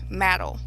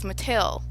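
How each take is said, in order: First: The word is said like 'maddle'. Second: The word is said like 'Mattel'. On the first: The speaker mispronounced the company name. The speaker calls it wrong. "she kept saying "maddle" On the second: This is the company name as intended. The speaker calls it right. "what she meant to say was Mattel"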